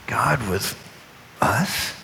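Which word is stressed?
us. The word us is stressed. "emphasize each word"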